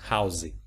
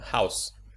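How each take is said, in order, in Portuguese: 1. Um som de vogal extra vem depois do s final. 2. A palavra termina no som de s, sem vogal. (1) "Eles pronunciam o vogal no final da palavra" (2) "O E no final da palavra é mudo"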